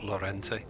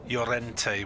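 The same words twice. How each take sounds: First: The name begins with an L sound. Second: The name begins with a Y sound. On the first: The speaker calls it wrong. "took me about a, a year to realise wasn't Llorente" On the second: The speaker calls it right. "Swansea City had uh, Llorente"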